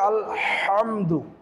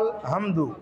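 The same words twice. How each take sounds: First: The h sound is pressed from the throat. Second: The h sound is light and plain. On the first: The speaker calls it right. "সহি শুদ্ধ হবে; হা কণ্ঠনালীকে চাপ দিয়ে উচ্চারণ করতে হবে" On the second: The speaker calls it wrong. "এখানে যেটা আমাদের ভুল হয় সেটা"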